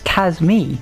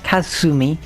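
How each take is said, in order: First: The u after the s is silent. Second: The u after the s is clearly sounded. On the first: The speaker calls it right. "You don't pronounce the U. So it's Kazmi" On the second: The speaker calls it wrong. "It's not Kazumi"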